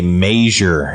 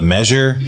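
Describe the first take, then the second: First: The first vowel is a long 'ay' sound. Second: The first vowel is a short 'eh' sound. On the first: This is how the father said it. "my dad always used to say measure ... there's a little line over the A" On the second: This is the usual pronunciation. "instead of measure"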